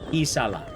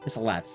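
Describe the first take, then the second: First: The word ends on a vowel, without a t. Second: The word ends with a clear t sound. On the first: The speaker calls it right. "pisala sounds a lot better" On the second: The speaker calls it wrong. "I'm pretty sure I'm pronouncing that wrong"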